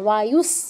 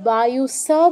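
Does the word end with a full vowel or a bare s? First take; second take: bare s; full vowel. First: The final s is half-pronounced with no vowel. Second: The final s is followed by a full vowel. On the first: The speaker calls it right. "অর্ধেক উচ্চারণ করছি" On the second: The speaker calls it wrong. "আমরা তো বলছি না বায়ুসা"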